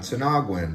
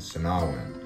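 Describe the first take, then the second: First: A G sound is heard in the middle. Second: No G sound is heard in the middle. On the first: The speaker calls it wrong. "Not Sinaguan" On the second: The speaker calls it right. "the G is kind of silent"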